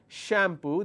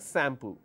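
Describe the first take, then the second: First: The word begins with an sh sound. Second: The word begins with an s sound. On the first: "instead of saying shampoo" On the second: "It's replaced with a s sound"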